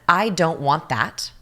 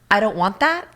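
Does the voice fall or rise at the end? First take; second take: falls; rises. First: The voice falls at the end. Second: The voice rises at the end. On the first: The speaker is firm and clear. The speaker calls it right. "downward inflection, very clear" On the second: The listener doubts the statement. The speaker calls it wrong. "The other person's like, Ugh. Well, do you want that?"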